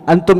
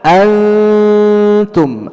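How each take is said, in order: First: The n is pronounced clearly and distinctly. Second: The n is a faint, blurred nasal hum. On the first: The speaker calls it wrong. "antum itu izhar, bukan ikhfa" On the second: The speaker calls it right. "Tapi ikhfa bagaimana?"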